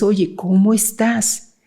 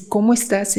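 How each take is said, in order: First: Affectionate greeting. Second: Said in the usual way. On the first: Shown as a demonstration. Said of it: "Es el tono de voz, la flexibilidad, el afecto". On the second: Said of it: "Es el tono de voz".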